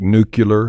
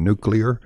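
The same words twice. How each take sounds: First: Nuclear said NOO-kyuh-ler; disputed variant pronunciation. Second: Nuclear said NOO-klee-er; standard pronunciation. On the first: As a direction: say nuclear as if spelt nucular. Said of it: "nuclear is an incorrect pronunciation". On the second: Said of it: "Like nuclear and nuclear". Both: Shown as a demonstration.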